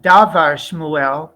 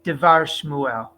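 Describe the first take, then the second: First: The first vowel is a full 'a' sound. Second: The first vowel is a short reduced 'e'. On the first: The speaker calls it wrong. "So it's not davar Shmuel" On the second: The speaker calls it right. "but devar Shmuel"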